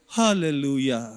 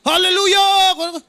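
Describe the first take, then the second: First: Sleepy mock hallelujah. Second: High, slow shouted hallelujah; mock shout. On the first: Pastor mimics a sleepy hallelujah. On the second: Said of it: "Sumisigaw na nga yung".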